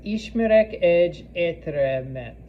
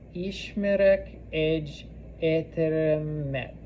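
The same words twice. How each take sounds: First: Said in the usual way. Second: Word by word, slowly; slow model sentence. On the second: Shown as a demonstration. Teacher repeating a Hungarian sentence for learners, slowly. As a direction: separate each word for learners.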